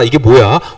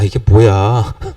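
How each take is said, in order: First: It is said with a delighted, excited tone. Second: It is said with a weary, annoyed tone. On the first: This is a wonderful surprise. "아싸, 이게 뭐야? 와, 이런 느낌이었다면" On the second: This is the same boring thing again. "시간이 점점 지나면서 아, 이게 뭐야? 이게 뭐야도 어떻게 발음, 내 마음의 상태가 어떠냐에 따라서"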